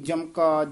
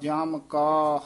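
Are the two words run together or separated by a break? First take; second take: run together; separated. First: The two words are run together without a break. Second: The two words are said separately with a break. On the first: The speaker calls it wrong. "ਇਉਂ ਨੀ ਬੋਲਣੇ" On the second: The speaker calls it right. "ਇਸ ਤਰ੍ਹਾਂ ਨਖੇਰ ਕੇ ਪੜ੍ਹਨੇ ਹਨ"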